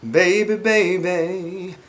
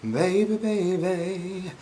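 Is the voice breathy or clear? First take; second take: clear; breathy. First: It is said in a clear, focused voice. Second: It is said in a soft, breathy, sultry voice.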